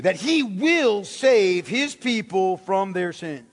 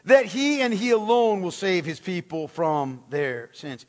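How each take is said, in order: First: Slow, weighty "will save his people"; stress on WILL SAVE. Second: "he and he alone" stressed, then easing down. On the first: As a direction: lean firmly on "will save", word by word. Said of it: "Emphasis this time on will save". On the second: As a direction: lean on "he and he alone", let the rest fall. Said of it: "it's very emphatic in particular". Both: Shown as a demonstration.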